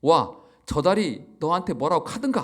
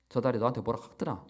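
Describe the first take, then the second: First: Second Gyeongsang attempt, "카든가" lifted at the end; a still-clumsy Gyeongsang accent, ending on a rise; Gyeongsang dialect retry. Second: A fast, fumbled Gyeongsang take on "저 달이 너한테 뭐라 카더라"; botched Gyeongsang accent, rushed; Gyeongsang dialect attempt. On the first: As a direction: redo "와, 저 달이 너한테 뭐라고 카든가" in a Gyeongsang lilt. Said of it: "경상도가 아니라 제가 죄송합니다". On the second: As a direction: try the Gyeongsang line "뭐라 카더라" quickly and get it slightly wrong. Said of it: "제가 발음이 좀 틀렸죠".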